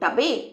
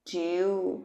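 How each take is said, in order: First: The vowel is a short 'ah' sound. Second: The vowel is a long 'yoo' sound. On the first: The speaker calls it wrong. "না রে বাবা, কি করে টাবে বলবো?" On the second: The speaker calls it right. "নাম বলবে তো।"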